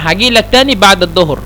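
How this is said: The first word starts with a hard g sound. It is how people from Cairo say it. "এটা হলো মানে কায়রোবাসী।"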